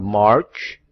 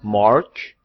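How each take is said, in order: Both takes have the same delivery.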